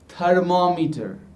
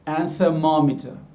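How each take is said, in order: First: The th is a Hindi-style dental stop. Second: The th is an English-style soft fricative. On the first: The speaker calls it wrong. "using our th sound" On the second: The speaker calls it right. "should be"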